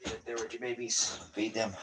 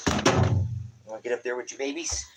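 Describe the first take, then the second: First: Much softer, said to himself; soft echo. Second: Higher, quick, teasing question; quoted divine voice. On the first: Real, not acted. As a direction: let it fall to a near-murmur. Quiet echo after a long pause. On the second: Retold or imitated. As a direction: ask it lightly, in someone else's timbre. God's words quoted, said again.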